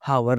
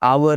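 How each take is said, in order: First: An h sound is pronounced at the start. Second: The h sound is left out. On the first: The speaker calls it wrong. "हावर नहीं होता" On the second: The speaker calls it right. "आवर होता है"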